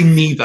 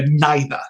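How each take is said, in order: First: It is said in the speaker's everyday accent. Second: It is said in a posh accent. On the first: This is how the speaker personally says it. "I'd say neither" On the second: This is how the character says it. "the Doctor would say it like that"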